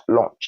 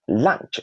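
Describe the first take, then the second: First: "lunch" said as "launch"; launch vowel. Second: "lunch" with an open uh, like "lanch"; correct pronunciation. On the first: Teacher showing the different word to avoid, launch vowel. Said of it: "That's different between". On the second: Teacher modelling the word for learners, correct pronunciation. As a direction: keep the vowel of "lunch" short and unrounded. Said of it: "not lunch". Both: Shown as a demonstration.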